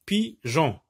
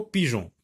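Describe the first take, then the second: First: Pigeon as PI, pause, GEON; two detached beats for Pigeon; split into syllables. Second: Said in the usual way. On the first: Shown as a demonstration. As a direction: isolate PI at the start of Pigeon. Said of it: "la même syllabe". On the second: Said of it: "dans le mot pigeon".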